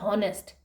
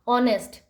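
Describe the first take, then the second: First: The word starts with an h sound. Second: The word starts with a vowel sound. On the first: The speaker calls it wrong. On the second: The speaker calls it right.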